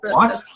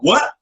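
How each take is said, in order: First: It sounds neutral and non-confrontational. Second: It sounds aggressive and confrontational.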